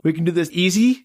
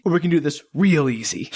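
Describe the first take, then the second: First: Said in the usual way. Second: Real leaned on, then easy falling away; stress on real. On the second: Retold or imitated. Host quoting Van Zan's punchline, leaning on real. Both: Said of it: "And Van Zandt is like".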